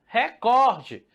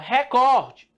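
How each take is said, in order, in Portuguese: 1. A tônica está na segunda sílaba. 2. A tônica está na segunda sílaba.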